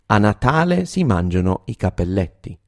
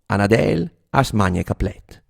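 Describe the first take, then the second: First: It is said in standard Italian. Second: It is said in Reggio Emilia dialect.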